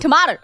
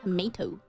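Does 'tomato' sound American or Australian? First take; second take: Australian; American. First: It is said with an Australian pronunciation. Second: It is said with a non-Australian, American-like pronunciation. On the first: The speaker calls it right. "I need to speak in my Australian accent" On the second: The speaker calls it wrong. "What did I just say?"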